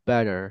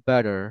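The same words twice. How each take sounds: Both takes have the same delivery.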